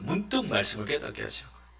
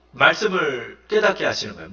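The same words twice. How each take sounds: First: "문득 말씀을 깨닫게 하시는 거예요" repeated softly and quickly, almost to oneself; soft echo. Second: Said in the usual way. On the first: Shown as a demonstration. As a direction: drop the volume right down and hurry the repeat. Soft echo of previous line. ("깨닫게"를 조용하고 빠르게 혼잣말처럼 되풀이)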